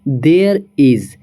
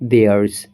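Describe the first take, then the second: First: Two full words: there, then is. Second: One contracted syllable: there's.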